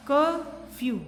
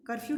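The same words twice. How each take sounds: First: "curfew" in two separate parts, a clear gap after कर; split into syllables. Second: Said in the usual way. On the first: Shown as a demonstration. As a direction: break "curfew" after कर, first part louder. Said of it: "हमने इसको टू part में बोला". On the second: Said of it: "curfew के बीच में एक line लग गई".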